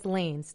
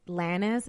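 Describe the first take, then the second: First: The name is pronounced the English way. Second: The name is pronounced the Spanish way. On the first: The speaker calls it right. "but it's [name]" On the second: The speaker calls it wrong. "that's how you pronounce it in Spanish"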